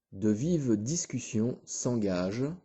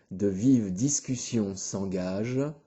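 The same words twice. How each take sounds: The two takes are said the same way.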